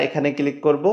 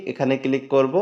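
Both takes have the same delivery.

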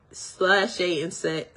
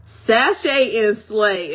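First: "sachet and say" slurred, the word "slay" slipped to "say"; tongue-tied slip. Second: "sachet and slay" said slowly and louder, each word clear with the l in slay; careful correction. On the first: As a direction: trip over "sachet and say", dropping the l of slay. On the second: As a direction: fix it carefully: "sachet and slay", slow and deliberate. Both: Real, not acted. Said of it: "I'm tongue tied".

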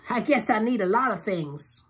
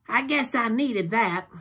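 First: High, coy tipsy purr; flirty Loretta. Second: High, slow drowsy purr; drowsy Loretta. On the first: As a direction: suggestive tipsy tease. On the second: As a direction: stretch it out sleepily. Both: A narrator's reading.

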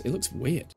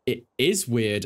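First: Said in the usual way. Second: "is" leaned on, falling; "It is weird" with weight on "is"; stress on is. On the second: Shown as a demonstration. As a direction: confirm it by hitting "is".

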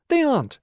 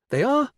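First: "aren't" very high and loud, then plunging; vanishing. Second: "are" very high, loud and rising; appearing. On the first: Teacher making figures vanish, loud falling "aren't". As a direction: drop "aren't" hard from the top. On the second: Teacher making figures reappear, high rising "are". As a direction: send "are" sharply upward. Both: A narrator's reading. Teacher toggling the pretend vision.

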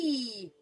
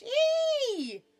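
First: High, loud yelp; sudden squeal falling in pitch; startled cry. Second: Very high, loud squeal; piercing, held yelp; pinched cry. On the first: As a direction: yelp as if pinched. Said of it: "cried the bee". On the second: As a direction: shriek a long note as if pinched hard. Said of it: "cried the bee again". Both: A narrator's reading.

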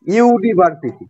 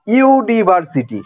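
First: Said in the usual way. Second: ইউনিভার্সিটি drawn out slowly, each syllable clear; slow demonstration. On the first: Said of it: "শুরুতে কি উচ্চারণ হচ্ছে?". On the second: Shown as a demonstration. Teacher showing students the word, slow and deliberate. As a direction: stretch ইউনিভার্সিটি out so the opening sound is heard. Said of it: "এখানে দেখো".

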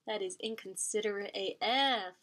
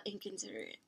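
First: Said in the usual way. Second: Inconsiderate whispered, barely audible; whispered repeat. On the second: Real, not acted. Reviewer muttering her verdict again, whispered.

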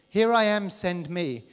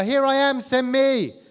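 First: Said in the usual way. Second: High, loud eager cry of here I am; volunteer calling out to God, loud and high; eager shout. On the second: Acted. Acting eager volunteer prophet.

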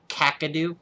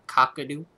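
First: Kakadu with "a" as in "cat" first; trying a pronunciation. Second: Cockadoo with "ah" as in "cock"; trying a pronunciation. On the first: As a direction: say Kakadu as "KACK-a-doo", questioning. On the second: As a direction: say cockadoo as "COCK-a-doo", questioning. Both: Shown as a demonstration. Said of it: "Like that?".

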